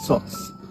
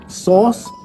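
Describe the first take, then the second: First: The vowel is cut short. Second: The vowel is held long. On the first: The speaker calls it wrong. "with sauce" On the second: The speaker calls it right. "replaced sauce"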